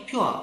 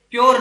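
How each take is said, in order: First: प्योर as "pyoo-uh", R silent; correct pronunciation. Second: प्योर as "pyor", loud, with sounded R; wrong pronunciation. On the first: Teacher models the right form, प्योर as "pyoo-uh". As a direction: glide from "oo" to "uh" in प्योर, no R. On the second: Teacher rejects the mistaken form, loud "pyor" for प्योर. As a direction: hit प्योर loudly as one syllable, "o" plus R. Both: Shown as a demonstration. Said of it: "प्योर नहीं है".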